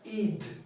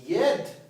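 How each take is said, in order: First: The ending is said with a short i vowel. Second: The ending is said with an open e vowel. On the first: The speaker calls it right. "а ид" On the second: The speaker calls it wrong. "Не ед"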